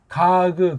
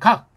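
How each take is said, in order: First: It is said as two syllables with an added vowel. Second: It is said as one syllable ending in k. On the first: The speaker calls it wrong. "이걸 가그 그러지 않아요" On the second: The speaker calls it right. "발음도 모아가지고 해요"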